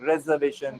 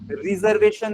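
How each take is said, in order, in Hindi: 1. पहले अक्षर में छोटा 'eh' स्वर है। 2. पहले अक्षर में लंबा 'ee' स्वर है। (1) "रे है" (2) "इसको रिजर्वेशन नहीं बोलते, री नहीं है"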